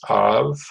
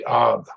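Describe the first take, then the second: First: The syllable ends with a V sound. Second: The syllable ends with a B sound. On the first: This is the Hebrew form of the name. "but in Hebrew, it's with a V" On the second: This is the English form of the name. "in English, we say Av. We say it with a B"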